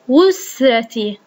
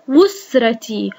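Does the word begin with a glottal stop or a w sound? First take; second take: w sound; w sound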